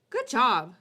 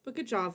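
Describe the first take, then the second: First: Good job punched loud; emphatic good job. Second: Said in the usual way. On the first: Real, not acted. Streamer insisting to chat, loud and emphatic. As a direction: bark out a sincere good job.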